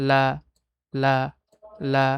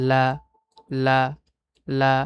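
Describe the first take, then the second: The two takes are said the same way.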